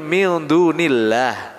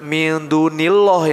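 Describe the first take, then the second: First: The l sound in Allah is light. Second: The l sound in Allah is heavy. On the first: The speaker calls it right. "tipis aja" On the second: The speaker calls it wrong. "Jangan Allahnya ditebalkan"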